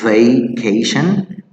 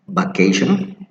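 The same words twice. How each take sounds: First: The first sound is a clear V. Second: The first sound is like a B. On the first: The speaker calls it right. "So it's vacation" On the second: The speaker calls it wrong. "many people say vacation. Even the B, it sounds like a bilateral B"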